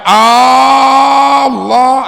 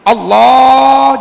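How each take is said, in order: First: The opening vowel at the start is drawn out. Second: The l sound in the middle is drawn out. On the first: It turns the statement into a question. The speaker calls it wrong. "jangan hamzahnya" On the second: It stays a statement of praise. The speaker calls it right. "yang dipanjangkan adalah lam jalalahnya itu"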